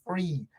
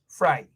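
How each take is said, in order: First: The vowel sounds like 'ee'. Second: The vowel sounds like 'eye'. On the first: The speaker calls it right. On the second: The speaker calls it wrong.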